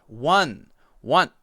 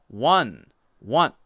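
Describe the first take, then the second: No difference in how they are said.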